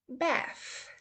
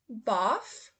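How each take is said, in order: First: It is said in an American accent. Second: It is said in a British accent. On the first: "then I will go over to the U S pronunciation" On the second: "first I will say the U K pronunciation"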